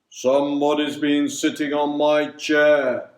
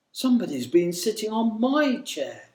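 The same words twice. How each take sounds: First: Loud, far-from-natural big bear voice; great deep bear voice. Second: Lightly voiced mother bear, higher than the narration; gentle middle-sized bear, pitched up a little. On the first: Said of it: "in his great deep voice". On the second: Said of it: "she said in her gentle". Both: A narrator's reading.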